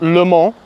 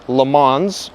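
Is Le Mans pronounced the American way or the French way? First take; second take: French; American. First: Le Mans is said with a French pronunciation. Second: Le Mans is said with an American pronunciation. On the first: This is the original name of the place. "not Le Mans, which is the correct pronunciation" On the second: This is how the American wheel name is said. "because it's American at the end of the day"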